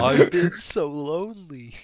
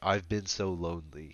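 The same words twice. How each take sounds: First: It is read in a sad voice. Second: It is read in a neutral voice.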